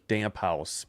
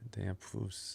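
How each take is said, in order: First: The second part sounds like English 'house'. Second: The second part sounds like 'foos'. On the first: This is how an English reader would say it. The speaker calls it wrong. "if you were just reading it like English" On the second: This is how the name is actually said. The speaker calls it right. "it was damp foos"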